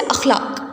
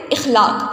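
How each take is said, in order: First: اخلاق with an "a" on the first letter; correct vowel marks. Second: اخلاق with an "i" on the first letter; common mispronunciation. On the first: Teacher models the word for students, اخلاق opened with "a". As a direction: say اخلاق as "akh-LAAQ", opening on a short a. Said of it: "الاخلاق میں الف کے اوپر زبر ہوتی ہے". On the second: Teacher shows students the common error, اخلاق opened with "i". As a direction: say اخلاق as "ikh-LAAQ", opening on a short i. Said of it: "جو عموماً ہم غلط بولتے ہیں". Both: Shown as a demonstration.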